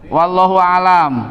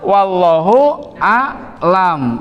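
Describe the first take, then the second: First: The second word has no throat consonant. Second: The second word has a throat consonant. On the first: God is the natural world. The speaker calls it wrong. "Berarti Allah itu alam gitu ya" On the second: God knows best. The speaker calls it right. "Tapi yang betul wallahu a'lam. pakai hamzah pakai ain"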